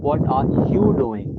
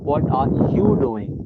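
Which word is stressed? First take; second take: you; you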